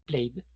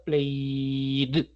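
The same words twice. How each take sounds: First: The ending is pronounced in a natural way. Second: The ending is pronounced in an exaggerated way. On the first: The speaker calls it right. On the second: The speaker calls it wrong.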